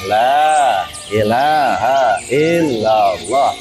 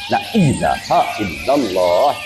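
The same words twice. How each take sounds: First: The vowel of the first word is long. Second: The vowel of the first word is short. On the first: The speaker calls it right. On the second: The speaker calls it wrong. "itu nggak sesuai. Dia bukan lai, dia nyelanya panjang"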